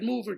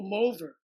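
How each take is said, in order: First: It sounds like the ordinary English word mover. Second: It sounds different from the English word mover. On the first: This is the name's true pronunciation. The speaker calls it right. "what do you got a furniture mover?" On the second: Someone else insisted on this pronunciation. The speaker calls it wrong. "you were in Italy too long"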